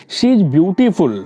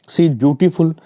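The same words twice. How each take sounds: First: She is beautiful read out slowly, word by word; a teacher spelling out an example at a slow pace. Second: Said in the usual way. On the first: Shown as a demonstration. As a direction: dictate the example sentence slowly for the class. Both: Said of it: "beautiful बता रहा है".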